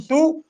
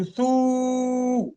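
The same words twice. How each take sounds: First: Short "ثو" in one beat; quick "ثو" with unheld u; short vowel. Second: Long "ثو", u held on a level note; sustained, stretched "ثو"; long vowel. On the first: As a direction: say "ثو" briefly, no lengthening. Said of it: "فبدل من أن أقول ثو". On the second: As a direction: draw "ثو" out for several beats. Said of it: "طويلًا في نطقه بالضمة". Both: Shown as a demonstration.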